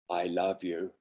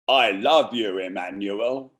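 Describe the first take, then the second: First: Put-on soft, low I love you in a northern accent; quiet. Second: Put-on I love you said aloud, northern accent; now say it out loud to him. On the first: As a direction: murmur it to yourself first. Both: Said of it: "Repeat out loud".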